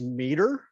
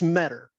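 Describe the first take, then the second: First: The first syllable has a long 'ee' vowel. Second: The first syllable has a short 'e' vowel. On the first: The speaker calls it wrong. "the one that I get the most is meter, because they see mead and they just add er" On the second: The speaker calls it right. "but it's Metter. Like I met her"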